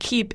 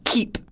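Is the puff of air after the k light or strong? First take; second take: light; strong. First: The k has a light puff of air. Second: The k has a strong puff of air. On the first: "a little bit of a puff of air" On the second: "over-aspirating. So the puff of air is extra pronounced"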